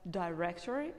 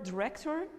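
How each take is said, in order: First: "director" opening with "die"; long I in "director"; "director" as "die-rector"; British "director". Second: "director" with a short first vowel; "director" as "duh-rector"; American "director". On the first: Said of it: "is in England". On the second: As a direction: reduce the I in "director". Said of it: "mostly pronounced in America". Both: Shown as a demonstration.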